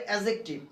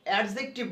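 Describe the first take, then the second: First: অ্যাডজেক্টিভ with the d dropped, "a-jektiv"; correct "adjective". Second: First অ্যাডজেক্টিভ with a sounded d, "ad-jektiv"; common "adjective" reading. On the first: Teacher showing the corrected adjective, pronounced "a-jektiv". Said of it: "ওর উচ্চারণ হবে". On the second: Teacher showing how we usually say adjective, "ad-jektiv". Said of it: "আমরা যখন অ্যাডজেক্টিভ বলি". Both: Shown as a demonstration.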